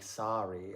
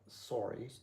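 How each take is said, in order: First: The O is said in a standard accent. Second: The O is said in a Canadian-style accent. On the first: "it's not like sorry" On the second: "It's like sorry"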